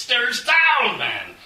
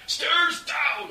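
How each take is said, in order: First: Loud, high bellow; bellowed demand. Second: Loud, high urgent shout. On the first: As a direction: roar the question without slowing down. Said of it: "Onstag bellowed". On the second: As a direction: yell it while running flat out. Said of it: "Onstag shouted". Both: A narrator's reading.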